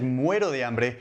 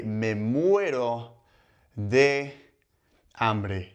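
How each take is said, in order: First: Said in the usual way. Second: Stretched out with long pauses between words; slow demo phrase. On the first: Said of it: "if you said". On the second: Shown as a demonstration. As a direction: model the idiom slowly for learners. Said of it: "would be to say".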